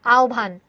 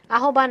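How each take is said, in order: First: আহ্বান said as "aobbhan", o then aspirated bh; the right আহ্বান, ao-bbhan with breathy bh; correct pronunciation. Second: আহ্বান said as "ahoban", h before a clear b; the mistaken আহ্বান, ah-ho-ban spelled out sound by sound; wrong pronunciation. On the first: Teacher gives students the correct form, aobbhan. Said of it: "এটার উচ্চারণ হচ্ছে". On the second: Teacher shows students the wrong way, ah-ho-ban. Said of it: "আহ্বান না". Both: Shown as a demonstration.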